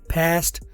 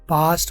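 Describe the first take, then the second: First: It is said with an American accent. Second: It is said with a British accent. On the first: "American है" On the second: "British है"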